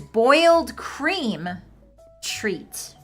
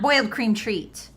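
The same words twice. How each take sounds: First: A break falls after the word cream. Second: A break falls after the word boiled. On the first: The cream is boiled, not the treat. The speaker calls it right. "what they mean here is" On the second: The whole treat is boiled. The speaker calls it wrong. "It's not"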